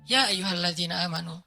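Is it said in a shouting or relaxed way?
relaxed. It is said calmly and gently.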